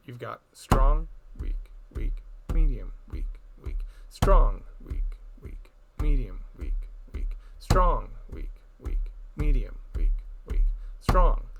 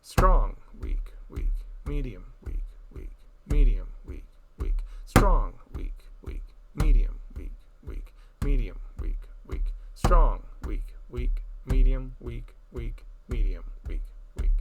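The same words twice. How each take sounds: First: Loud strong, whispered weak, firm medium; six eight accent pattern. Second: Loud strong, whispered weak, firm medium; nine eight accent pattern. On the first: Teacher chanting six eight time with accents. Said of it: "the accent structure uses a different pattern". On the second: Teacher demonstrating nine eight time, accented chant. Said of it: "So it sounds something like this". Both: Shown as a demonstration.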